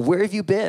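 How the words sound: It sounds sharp and accusing.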